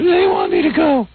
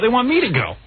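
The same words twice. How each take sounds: First: It is said in his wife's hoarse voice. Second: It is said in a plain, normal voice.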